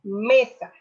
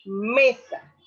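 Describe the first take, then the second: First: Mesa said loud with me stressed; stressed example. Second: Mesa again, loud, weight on me; stressed repeat. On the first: Teacher says mesa to show the stressed syllable. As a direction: push the me in mesa. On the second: Teacher repeats mesa so students hear me. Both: Shown as a demonstration. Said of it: "Vuelvo a repetir".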